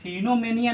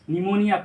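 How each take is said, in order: First: The word starts with an audible p sound. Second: The word starts with no p sound. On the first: The speaker calls it wrong. "इसको हम फिनोमेनिया नहीं पढ़ेंगे" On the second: The speaker calls it right. "P को silent करके निमोनिया पढ़ेंगे"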